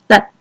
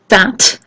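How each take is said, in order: First: The final t is held with no puff. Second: The final t is released with a puff.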